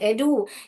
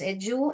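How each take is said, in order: First: The d is said as a plain d. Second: The d is said like a j sound.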